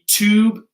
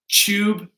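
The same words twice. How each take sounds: First: It starts with a hard t sound. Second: It starts with a ch-like sound. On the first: "In American English, a hard T" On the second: "In British English, it'll be a C H"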